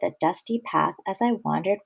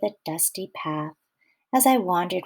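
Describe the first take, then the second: First: It runs straight on with no pause after path. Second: There is a breath pause right after path. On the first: The speaker calls it wrong. "That was a big mouthful" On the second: The speaker calls it right. "I'm going to put my comma, right after path"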